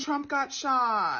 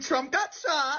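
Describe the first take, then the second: First: It is said in a flatter, subdued tone. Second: It is said in a gleeful, happy tone. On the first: The speaker hides any pleasure at the news. The speaker calls it right. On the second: The speaker is pleased by the news. The speaker calls it wrong.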